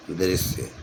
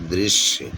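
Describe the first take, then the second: First: दृश्य with a plain s, as "drisye"; wrong spelling read out. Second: दृश्य with a clear sh, as "drishye"; careful model reading, "DRISH-ye"; correct pronunciation. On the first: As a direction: say दृश्य as "dri-sye", no sh. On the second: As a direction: say दृश्य with a held sh before y. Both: Shown as a demonstration. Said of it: "तो जो शुद्ध वर्तनी है".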